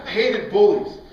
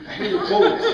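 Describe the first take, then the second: First: Said in the usual way. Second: Said high with a laugh in it. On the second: Real, not acted. A preacher laughing as he tells the church he hated bullies. Repeated line, first laughing.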